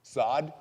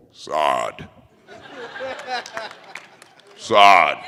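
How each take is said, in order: First: Said in the usual way. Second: Low stern-father call; character catchphrase. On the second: Pretend. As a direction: put on a deep commanding voice. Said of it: "so say boy in Malawan".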